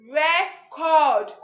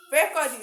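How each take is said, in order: First: "record" slowly, with a loud, long "cord"; "record" as a verb, re-CORD; verb stress on second syllable. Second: "record" slowly split, first syllable lifted and long; "record" as a noun, RE-cord; noun stress on first syllable. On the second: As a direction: say RE-cord with weight on the opening syllable. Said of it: "that is noun". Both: Shown as a demonstration.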